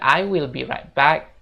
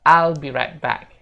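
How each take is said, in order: First: I will is said as two full words. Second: I will is shortened into one syllable. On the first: The speaker calls it wrong. "Jadi bukan I will be right back" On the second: The speaker calls it right. "untuk cara bicaranya kita bisa bilang I'll"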